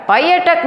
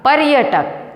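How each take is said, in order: First: पर्यटक said without the r, pa-ya-tak; पर्यटक given as the wrong form, no r; wrong pronunciation. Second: पर्यटक said with the r, par-ya-tak; पर्यटक shown as the right form, with the r; correct pronunciation. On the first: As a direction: drop the r in पर्यटक, payatak. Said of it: "पर्यटक नहीं होता". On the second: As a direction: sound the r in पर्यटक, paryatak. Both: Shown as a demonstration.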